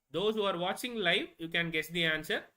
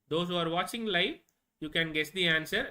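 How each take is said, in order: No difference in how they are said.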